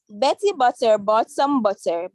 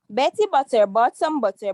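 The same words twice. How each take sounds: First: It is said at a normal pace. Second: It is said faster.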